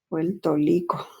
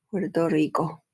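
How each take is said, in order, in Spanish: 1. Los sonidos de la R no se pronuncian como R. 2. Los sonidos de la R se pronuncian claramente.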